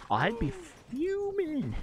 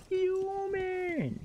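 First: High-pitched mock outrage on "fuming". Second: Mock fuming. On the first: To chat about his trashed house, high mock outrage. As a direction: pitch "fuming" way up in playful indignation. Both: Real, not acted.

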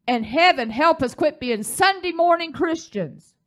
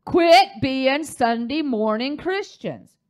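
First: Higher, rising preacher's plea; emphatic exhortation. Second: Quit being Sunday morning Christians, slow and weighted, each word hit; slow emphatic repeat. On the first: Preacher pleads with congregation, emphatic. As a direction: urge the church with some force. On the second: Preacher repeats warning to congregation, slow and emphatic. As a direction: hammer home every word slowly. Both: Real, not acted. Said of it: "Do I need to say it again?".

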